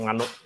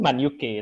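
First: It is read as one Indonesian word 'manuk'. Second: It is read as English 'Man' plus letters 'U K'. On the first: "tapi kalau bahasa Indonesia yang manuk" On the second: "Kalau bahasa Inggrisnya sih Man UK"

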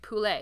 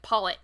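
First: The word is said with a French pronunciation. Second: The word is said with an English pronunciation. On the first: The speaker calls it right. "the way that they're pronounced in French" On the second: The speaker calls it wrong. "I just make jokes about, you know, not pronouncing things the way that they're pronounced in French"

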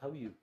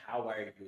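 First: It is said fast, the words run together. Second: It is said slowly and carefully, word by word.

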